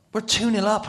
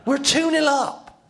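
First: High, loud disbelief; excited exclamation. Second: Very high, drawn-out shout; elated shout. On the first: Player who hasn't touched the ball tells of the lead, loudly excited. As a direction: exclaim the astonishing score. Amazed at being ahead. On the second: Player overjoyed at the lead, shouting slowly. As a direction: shout the score slowly in amazed joy. Repeats score, more elated. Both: Retold or imitated.

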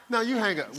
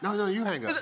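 First: Playful, loud lovey-dovey whine; giggly late night call. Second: Playful high sweet-talk; giggly late night call. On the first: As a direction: tease like a smitten teen. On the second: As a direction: coo it like a teenage crush. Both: Retold or imitated. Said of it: "Be like".

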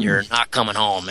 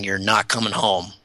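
First: Spooky inner voice. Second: A hushed, softer voice repeating a warning; eerie inner voice. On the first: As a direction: echo the warning like a ghostly whisper in the mind. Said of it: "It was really spooky". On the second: Podcast guest retelling the voice in his head, hushed and eerie. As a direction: let it sound like a quiet voice in his head. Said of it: "I had this crazy voice in my head". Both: Retold or imitated.

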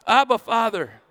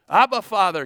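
First: High, loud "Abba, Father" with "Abba" punched hard; Abba, Father, called out again with the congregation. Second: Loud, high "Abba, Father" with the stress on "Abba"; Abba, Father, called out. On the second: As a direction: call "Abba, Father" as a child would call a daddy. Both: Shown as a demonstration. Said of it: "can you say that with me".

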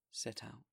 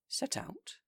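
First: Soft, settled reply; quietly insist, unbothered; calm confirmation. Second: High, disbelieving question; shocked echo. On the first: Bishop calmly repeating his plan to the mayor. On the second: Mayor echoing the bishop in alarm, much higher. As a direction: squeak it out in disbelief. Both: Acted.

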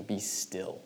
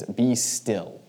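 First: Hushed. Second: Calm command. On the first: Shown as a demonstration. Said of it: "very specific in their culture". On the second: Retold or imitated. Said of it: "he just says".

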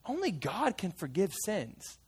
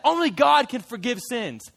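First: "only God can forgive sins" said softer and slow, almost hushed; quiet conviction. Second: Indignant Pharisee. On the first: The fisherman recalls what even he knew, hushed and slow. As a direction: hush it down and let "only" linger. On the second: The Pharisees protest Jesus's words, indignant. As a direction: push back hard, stress on God. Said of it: "the Pharisees are like". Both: Acted.

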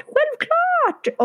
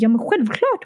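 First: "självklart" jumped up very high and falling; waitress insisting, "självklart" much higher than before; high emphatic echo. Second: Said in the usual way. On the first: Retold or imitated. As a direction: repeat "självklart" squeaky high, overeager.

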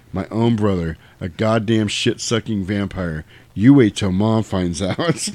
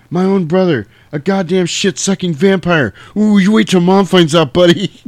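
First: Said in the usual way. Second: Sam's line shouted high and loud; acted outburst. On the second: Kid brother yelling at vampire brother, loud and high. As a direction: belt the kid's accusation up high. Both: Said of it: "That's one of the greatest lines in movie history".

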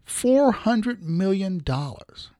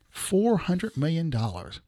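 First: Four hundred million dollars, slow and deliberate; slow, weighty four hundred million dollars; slow emphasis. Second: Four hundred million dollars repeated slowly and softer; hushed slow repeat of four hundred million dollars; slow quiet repeat. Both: Real, not acted.

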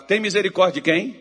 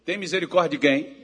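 First: Loud, rising call-out; louder call. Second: Said in the usual way. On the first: Shown as a demonstration. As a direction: demand a stronger answer from the crowd. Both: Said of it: "Tá fraco".

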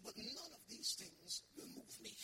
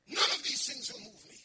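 First: Quiet vow. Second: Loud declaration. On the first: Paul's vow, quiet then repeated. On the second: Preacher repeats Paul's vow aloud. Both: Acted.

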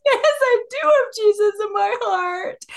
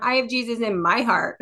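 First: Put-on high, slow toddler voice, insisting; insistent little one. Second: Said in the usual way. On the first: Toddler insisting to his older brother, high and slow. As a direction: play the almost-three-year-old digging in, high and drawn out. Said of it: "And the little one goes". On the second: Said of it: "And the five-year-old says".

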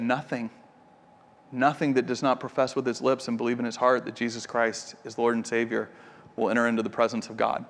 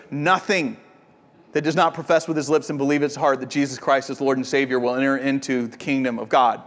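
First: Low, soft and grave, each word set down deliberately; quiet, grave retelling of the father's answer; solemn quiet pronouncement. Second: Rattled off fast like a memorized formula; fast, flat recital of the same line to the guest; brisk rote repeat. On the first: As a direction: hush it like a stern final verdict. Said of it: "And Wade said". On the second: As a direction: run through it quickly and mechanically, no weight. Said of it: "Wade turned and looked at me and goes". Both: Retold or imitated.

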